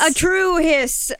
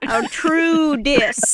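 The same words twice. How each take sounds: First: "hiss" said slowly with a stretched hissing s; "A true hiss" drawn out, leaning on "hiss"; hissing pun. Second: Dry deadpan. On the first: Shown as a demonstration. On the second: Pretend. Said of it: "Ollivander says dryly without laughing".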